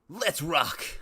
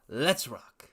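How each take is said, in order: First: It is said in a put-on joke character voice. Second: It is said in his ordinary speaking voice. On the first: The speaker calls it right. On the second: The speaker calls it wrong.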